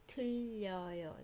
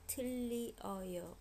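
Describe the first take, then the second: First: The vowels merge, giving two syllables. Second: The vowels are said separately, in three syllables. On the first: "you say it really fast. It becomes 틀려요" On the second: "originally it was 틀리어요"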